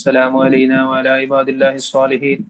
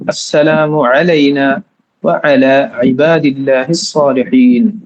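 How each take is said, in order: First: The 'ayn throat sounds are missing. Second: The 'ayn throat sounds are clearly pronounced. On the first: The speaker calls it wrong. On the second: The speaker calls it right.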